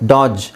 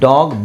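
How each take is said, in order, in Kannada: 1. ಈ ಪದ ಕೊನೆಯಲ್ಲಿ ಮೃದು j ಶಬ್ದ ಬರುತ್ತದೆ. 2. ಈ ಪದ ಕೊನೆಯಲ್ಲಿ ಗಟ್ಟಿ g ಶಬ್ದ ಬರುತ್ತದೆ. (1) "ಡಾಜ್ ಅಂತ ಹೇಳ್ತೀವಿ, ಇಲ್ಲ" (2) "ಗ ಅಂತಲೇ ಹೇಳ್ತೀವಿ"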